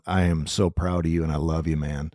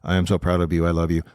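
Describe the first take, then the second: First: It sounds warm and heartfelt. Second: It sounds rote and hollow.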